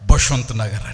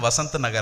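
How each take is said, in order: First: The name begins with a B sound. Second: The name begins with a V sound. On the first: "ఏమంటారు తెలుసా? బసంత్ నగర్ అంటారు" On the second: "వసంత్ Nagar అంటే"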